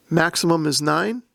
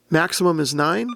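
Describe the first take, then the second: No difference in how they are said.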